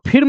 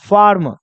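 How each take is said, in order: First: The vowel is a short 'i' sound. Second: The vowel is an 'er' sound. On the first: The speaker calls it wrong. "इसको मत पढ़िएगा" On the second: The speaker calls it right. "आई के बाद आर देगा तो उसका उच्चारण हो जाएगा अ"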